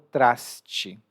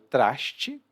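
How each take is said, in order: First: The s before t sounds like plain s. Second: The s before t sounds like sh. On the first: "outras pessoas pronunciam como traste, com um S mais suave" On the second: "eu pronuncio traste com sh, esse som de x"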